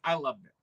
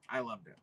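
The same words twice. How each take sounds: First: Said in the usual way. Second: "I loved it" dropped much softer, to himself; soft afterthought. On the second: Real, not acted. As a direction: murmur "I loved it" as a private aside. Repeats the phrase, second time softer.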